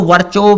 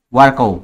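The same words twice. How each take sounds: First: वर्चो with CH in the middle; alternative CH pronunciation. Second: वर्कोव with a hard K in the middle; hard-K reading of वर्कोव; pronounced with K. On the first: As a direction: say वर्चो as "var-cho", CH not K. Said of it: "इसको वर्चो भी पढ़ते हैं". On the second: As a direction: say वर्कोव as "var-ko", K not CH. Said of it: "कुछ बच्चे इसको वर्चो भी पढ़ते हैं". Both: Shown as a demonstration.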